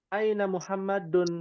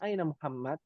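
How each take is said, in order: First: The final case ending -un is fully pronounced. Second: The final case ending is dropped after the name. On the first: This is the careful form used while studying. "harokat akhirnya dibaca semua" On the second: This is the casual form used in everyday conversation. "biasanya disukunkan"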